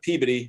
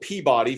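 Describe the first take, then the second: First: The name is pronounced in the local way. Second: The name is pronounced just as it is spelled. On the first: This is how residents say it. "but Peabody if you live there" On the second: This is how outsiders say it. "spelled Peabody for everybody the rest of the country"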